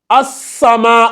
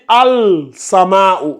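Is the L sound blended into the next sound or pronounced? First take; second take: blended; pronounced. First: The L merges into a doubled S sound. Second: The L is pronounced clearly before the S. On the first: The speaker calls it right. "on va lire as-sama" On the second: The speaker calls it wrong. "on ne va pas dire al-sama"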